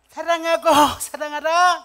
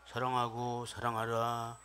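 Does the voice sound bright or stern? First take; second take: bright; stern. First: It is said brightly, smiling, in a high pitch. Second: It is said sternly, with a frowning, scary tone. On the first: The listener would feel good. The speaker calls it right. "웃으면서 밝게 웃으면서 다시 한번 하이톤으로" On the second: The listener would feel uncomfortable. The speaker calls it wrong. "인상 쓰면서 하면 ... 무섭잖아요"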